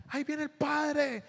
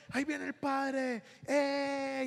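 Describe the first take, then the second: First: Put-on excited children. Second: Put-on high child voice, softer and slow; excited children. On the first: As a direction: mimic small kids spotting the priest. (niños emocionados gritando al ver al padre) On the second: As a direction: echo the kids' happy call, fading a little. (niños felices, más suave) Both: Children shout at priest arriving.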